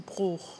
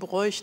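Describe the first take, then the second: First: The vowel is a single long vowel. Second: The vowel is a gliding diphthong. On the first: The speaker calls it right. "dabei heißt du" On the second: The speaker calls it wrong. "alle Leute sagen"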